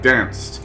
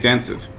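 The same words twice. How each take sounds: First: The word is said as one syllable. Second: The -ed ending is said as a separate syllable. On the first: The speaker calls it right. "it's always a contracted" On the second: The speaker calls it wrong. "we wouldn't say danced"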